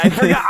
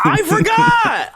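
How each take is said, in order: First: Said in the usual way. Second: High stretched-out yell; shouted. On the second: Acted. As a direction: wail it out slowly. Repeating "I forgot" to build.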